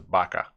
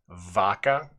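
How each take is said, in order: First: The word starts with a soft B-like sound. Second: The word starts with a hard V sound. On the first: The speaker calls it right. "You would more commonly hear this pronounced as vaca" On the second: The speaker calls it wrong. "you really wouldn't say it with the hard V"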